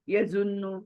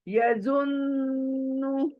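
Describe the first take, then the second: First: The n is short and said quickly. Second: The n is held long with a nasal hum. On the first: The speaker calls it wrong. "We read like this ना, जल्दी जल्दी पढ़ते हैं ना हम, जो कि गलत है।" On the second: The speaker calls it right. "तो हमें गुन्ना करते हुए नून को पढ़ना है।"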